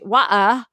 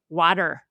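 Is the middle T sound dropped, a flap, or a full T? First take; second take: dropped; flap. First: The middle T sound is left out. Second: The middle consonant is a quick D-like flap. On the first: "a very different variety of British English" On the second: "a flap"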